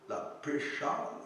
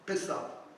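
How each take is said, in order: First: The middle consonant sounds like sh. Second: The middle consonant sounds like s. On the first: The speaker calls it wrong. "j'espère que je le prononce correctement" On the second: The speaker calls it right. "C'est bien Pessa"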